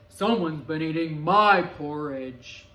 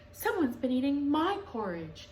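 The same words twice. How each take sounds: First: Low, loud, slow big bear; lower, booming papa bear. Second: Higher, louder mother bear; a brisk higher mama bear; raised mama bear voice. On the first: Papa Bear voiced in story. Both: A narrator's reading.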